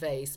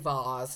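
First: It is said with a plain, everyday pronunciation. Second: It is said with a posh, refined pronunciation. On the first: This is seen as the lower-class way. "because vase is lower class" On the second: The speaker wants to sound upper class. "that fake refined"

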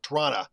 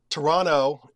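First: The word is squeezed down to about two syllables. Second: The second T is dropped from the word. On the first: The speaker has lived there a very long time. "if you've been here forever" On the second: The speaker has lived there a few years. "if you're here, you've been here about 5 years"

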